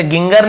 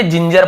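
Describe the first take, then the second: First: "गिंगर" with two hard g sounds; hard G misreading. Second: "जिंजर" with two j sounds; soft G reading. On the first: Teacher showing what not to read, "गिंगर" with hard g. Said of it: "ऐसे गिंगर नहीं पढ़ेंगे". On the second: Teacher giving students the correct reading, "जिंजर" with j. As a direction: read ginger with soft g, "जिंजर". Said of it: "जिंजर पढ़ेंगे". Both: Shown as a demonstration.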